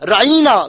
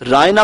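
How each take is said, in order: First: The middle vowel is an 'ee' sound. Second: The middle vowel is a plain 'ay' sound. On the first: The word becomes an insult. The speaker calls it wrong. "बिगाड़ कर राइना थोड़ी जेर के साथ पढ़ा करते थे" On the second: It is a harmless, respectful word. The speaker calls it right. "रायना कोई गुस्ताखी का कलमा नहीं है"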